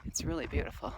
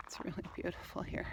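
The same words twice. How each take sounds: First: Said in the usual way. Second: "really beautiful here" whispered in awe; awed whisper. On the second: Real, not acted. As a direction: breathe it out, taken by the view. Admiring the view, awed.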